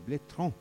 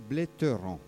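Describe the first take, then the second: First: No vowel is sounded between t and r. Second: An extra vowel is sounded between t and r. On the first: This is how the locals say the name. The speaker calls it right. "Je lui dis c'est blétran" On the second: This is how someone else said the name. The speaker calls it wrong. "votre euh, présentateur a dit bléteran"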